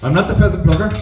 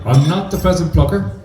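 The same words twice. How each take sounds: First: It is said really fast. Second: It is said a bit faster.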